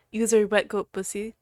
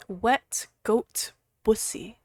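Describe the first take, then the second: First: Said in the usual way. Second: "Wet goat pussy" whispered slowly, every consonant crisp; enunciated whisper. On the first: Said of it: "Enunciated every single consonant". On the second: Shown as a demonstration. Streamer savours a viewer's username, slow crisp whisper. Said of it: "Enunciated every single consonant of that word".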